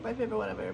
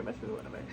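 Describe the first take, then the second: First: Said in the usual way. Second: "my favorite whatever" whispered, no voice. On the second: Real, not acted. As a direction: breathe it out as a whisper. Repeats phrase, then whispers it.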